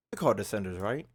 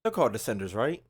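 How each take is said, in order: Both takes have the same delivery.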